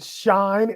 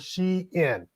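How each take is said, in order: First: It is one syllable, rhyming with line. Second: It is two syllables, she then in. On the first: "Shine, S H I N E" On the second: "or She In"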